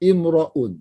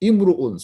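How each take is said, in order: First: The vowel after r is an 'a' sound. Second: The vowel after r is a 'u' sound. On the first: "Sini ra tu bagi atas" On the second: "Ra tu baca. Baca dengan ru"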